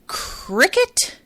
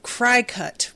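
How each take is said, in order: First: It sounds like the word cricket. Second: It does not sound like the word cricket. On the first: The speaker calls it right. "is it supposed to be cricket?" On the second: The speaker calls it wrong. "my pronunciation of Crycut"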